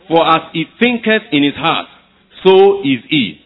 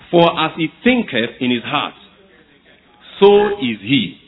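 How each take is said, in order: First: It is read at a louder volume. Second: It is read at a normal, quieter volume. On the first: "Let's read it louder" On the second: "Let's read it together"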